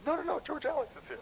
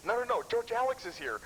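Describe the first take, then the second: First: Much higher, frantic mock panic; hammed-up alarm of a friend bolting for the car; hyper Steve. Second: High, urgent mock panic; panicky Steve. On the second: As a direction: imitate a friend sure they're caught, pitched up. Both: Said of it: "He can get pretty hyper".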